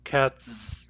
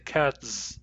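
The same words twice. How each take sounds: Both takes have the same delivery.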